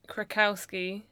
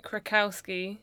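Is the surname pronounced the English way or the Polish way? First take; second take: English; English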